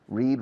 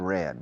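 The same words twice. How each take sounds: First: The vowel sounds like the one in 'seed'. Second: The vowel sounds like the one in 'bed'. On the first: It is the present tense. "In the present" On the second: It is the past participle. "the pronunciation of the past tense and the participle is similar to the color red"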